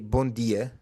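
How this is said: It is said with a European Portuguese accent.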